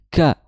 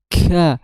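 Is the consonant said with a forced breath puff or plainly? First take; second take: plain; forced breath. First: The k is said plainly without extra breath. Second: The k is pushed out with a forced breath. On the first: The speaker calls it right. "tapi ka biasa aja" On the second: The speaker calls it wrong. "enggak seperti itu, enggak dibuat-buat"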